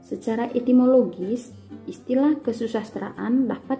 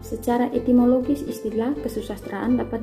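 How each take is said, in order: First: It is read at a moderate pace. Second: It is read at a fast pace. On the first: The speaker calls it right. "bacalah dengan tempo yang pas-pas" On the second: The speaker calls it wrong. "Misalkan baca dengan tempo cepat"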